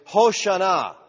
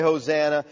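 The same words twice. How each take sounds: First: "Hoshana" with sh and an open final ah; Hebrew pronunciation. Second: "Hosanna" said with a z and short a, stressed in the middle; English pronunciation. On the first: Preacher showing the congregation the original phrase, Hebrew pronunciation of "Hoshana". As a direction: say "Hoshana" as hoh-shah-NAH, drawn out at the end. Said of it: "comes from the Hebrew phrase". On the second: Preacher giving the church's familiar word, English pronunciation of "Hosanna". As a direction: say "Hosanna" as hoh-ZAN-uh. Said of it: "we say Hosanna". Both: Shown as a demonstration.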